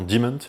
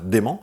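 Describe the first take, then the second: First: The name is said with an English-style pronunciation. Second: The name is said with a French 'é' vowel. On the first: This is probably the name's real pronunciation. "ça se prononce certainement Dement" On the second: The name is read the way it is spelled. "comme ça s'écrit Dément, je vais le dire Dément"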